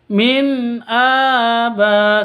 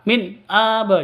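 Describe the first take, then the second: First: The n is held clearly and smoothly. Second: The n is cut off with an abrupt jerk. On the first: The speaker calls it right. "seperti itu" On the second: The speaker calls it wrong. "jangan seperti seperti itu ya"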